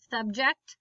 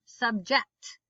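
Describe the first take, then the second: First: Subject as SUB-ject; stress on first syllable. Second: Subject as sub-JECT; stress on second syllable. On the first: Teacher reading word list aloud, stress on first syllable. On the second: Teacher reading word list aloud, stress on second syllable. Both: Shown as a demonstration. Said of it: "both of the different pronunciations".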